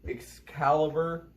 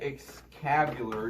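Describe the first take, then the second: First: The second syllable sounds like 'cal'. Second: The second syllable sounds like 'cab'. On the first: The speaker calls it right. "I finally said it right" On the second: The speaker calls it wrong. "I've been saying it Excalibur. Nowhere in the word does it say Excab"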